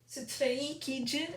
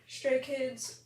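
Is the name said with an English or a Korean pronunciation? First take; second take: Korean; English. First: The name is said with a Korean pronunciation. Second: The name is said with an English pronunciation.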